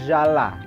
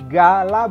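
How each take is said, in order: First: The first consonant is a soft J sound. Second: The first consonant is a hard G sound. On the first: The speaker calls it wrong. "bukan jala" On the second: The speaker calls it right. "karena ini yang berat"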